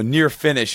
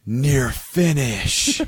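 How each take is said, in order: First: Said in the usual way. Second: Very slow, stretched-out stoned awe; mock stoned slow-motion exclamation; slow-motion popping. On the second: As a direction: drag out both words in dazed wonder. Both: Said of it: "the most slowest of manner".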